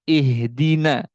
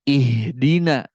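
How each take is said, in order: No difference in how they are said.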